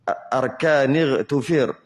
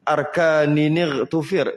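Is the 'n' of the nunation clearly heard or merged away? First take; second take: merged; clear. First: The nunation 'n' is not clearly heard. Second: The nunation 'n' is clearly pronounced.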